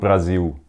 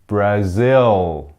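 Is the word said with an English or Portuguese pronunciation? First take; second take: Portuguese; English. First: It is said with a Portuguese pronunciation. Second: It is said with an English pronunciation. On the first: The speaker calls it wrong. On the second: The speaker calls it right.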